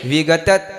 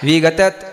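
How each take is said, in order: The two takes are said the same way.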